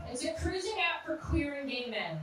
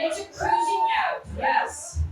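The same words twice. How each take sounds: First: Said in the usual way. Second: Very high, loud held shout; hyped-up shout. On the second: Acted. Comic announcing a cruising app to the crowd, high excited shout. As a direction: whoop it out at the top of your range.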